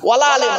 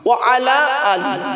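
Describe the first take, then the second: First: Said run together, the last ending in 'e'. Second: Said as separate words, the last ending in 'i'. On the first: The speaker calls it wrong. "ওয়ালা আলে নয়। খুব মারাত্মক বড় ভুল" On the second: The speaker calls it right.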